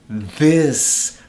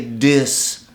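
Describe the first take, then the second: First: It is said without a Jamaican accent. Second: It is said with a Jamaican accent. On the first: The speaker calls it right. "The word is this. Pronounce it like this" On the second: The speaker calls it wrong. "we all talk like Jamaicans. ... you can't say this"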